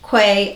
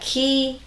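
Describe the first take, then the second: First: The name begins with a 'kw' sound. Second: The name rhymes with the word 'see'. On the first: "so many people call it Quay" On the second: "it says Key is the right way to pronounce it"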